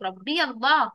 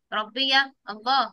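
First: Said in the usual way. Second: Put-on slow, clear answer for the kids to copy; slow model answer. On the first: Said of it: "برافو عليك". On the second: Shown as a demonstration. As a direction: say it slowly so they repeat it. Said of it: "تقول لي إيه؟". (إجابة نموذجية ببطء)

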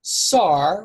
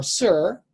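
First: Sar drawn out with an open "ah"; careful, isolated sar; Hebrew word. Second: Sir with an "ur" vowel, drawn out; careful, isolated sir; alternative Hebrew pronunciation. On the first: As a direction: say sar like "sahr", set apart. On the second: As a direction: say sir as the other form of the Hebrew word. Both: Shown as a demonstration. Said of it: "the word for prince in Hebrew".

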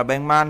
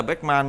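First: Batman said "baeng-man", k turned to ng; nasalized pronunciation. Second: Batman said "baek-man", with a k stop; as spelled. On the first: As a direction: say Batman with ng closing the first syllable. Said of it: "mình đọc là Batman thôi". (đọc Batman thành "beng-man", âm ng) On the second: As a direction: say Batman with k closing the first syllable. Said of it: "nhưng mình vẫn viết là Batman". (đọc Batman theo mặt chữ "béc-man") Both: Shown as a demonstration.

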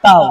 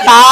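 First: "তাও" said quickly as one gliding syllable; brisk, unstretched diphthong on "তাও"; quick leen letter. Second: "তা" with the long a held for one beat; drawn-out, steady "তা" as a teacher demonstrates; stretched madd letter. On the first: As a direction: say "তাও" short, gliding from a to o without stretching. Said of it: "লিনের হরফ হচ্ছে তাড়াতাড়ি". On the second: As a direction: stretch the vowel of "তা" evenly. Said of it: "মদের হরফ এক আলিফ টান হবে". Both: Shown as a demonstration.

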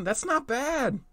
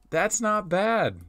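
First: Much higher, pleasantly surprised; squeaky surprised. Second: Slow, drawn-out nod of approval; slow approving. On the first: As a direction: squeak it out in delight. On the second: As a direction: savor it slowly. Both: Real, not acted. Repeats verdict, first squeaky high.

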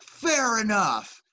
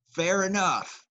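First: Drawn-out fair enough. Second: Said in the usual way. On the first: Retold or imitated.

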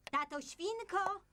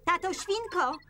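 First: High, slow, softer call; drawn-out call. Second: High, raised call for help; high, brisk shout for someone. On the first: Mother calls father a second time. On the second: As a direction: summon him with a high call. Mother calls father for help. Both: Acted.

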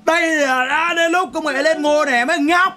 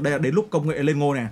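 First: High, loud, drawn-out announcement; hammed-up triumphant shout; mock proclamation. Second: Said in the usual way. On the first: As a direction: proclaim it loudly and slowly, way up high. Same line repeated as a proclamation.

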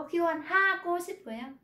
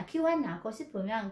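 First: Khiêu hoan ha with a separate, pronounced ha; wrong heavy ha. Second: Khiêu hoan nào said fast with no ha; fast native linking. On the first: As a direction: spell out the ha the wrong way. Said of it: "Người ta không đọc chữ ha". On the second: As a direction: let it flow quickly, nào not ha. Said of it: "người ta đọc nhanh". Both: Shown as a demonstration.

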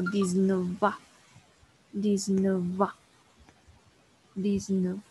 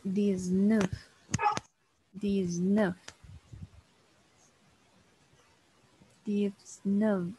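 First: "Diecinueve" as French "diz-neu-van", F linked as V; liaison francesa. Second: "Diecinueve" said in French as "diz-neuf"; diecinueve en francés. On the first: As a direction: link French "dix-neuf" into "ans": "diz-nœ-van". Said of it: "para hacer la aliación". ("Diecinueve" en francés con enlace: "diz-nœ-van") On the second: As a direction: slowly model "Diecinueve" as French "diz-nœf". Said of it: "en este caso es". ("Diecinueve" en francés, lento: "diz-nœf", sin enlace) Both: Shown as a demonstration.

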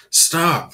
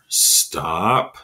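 First: Urgent call. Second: Gentle plea. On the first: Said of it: "thought Jeremy". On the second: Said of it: "thought Jeremy again". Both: Acted.

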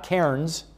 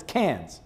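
First: Cairns said as CARE-ens with the R; wrong, as spelled. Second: Cairns said as "cans"; Australian pronunciation. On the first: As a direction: sound out the R in Cairns. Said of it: "It's not Cairns". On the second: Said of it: "It's Cairns". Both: Shown as a demonstration.

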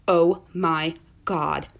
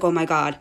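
First: Drawn-out, low, word by word; slow realisation. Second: Said in the usual way. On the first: Retold or imitated. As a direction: stretch each word as it sinks in. Repeat as the realisation sinks in.

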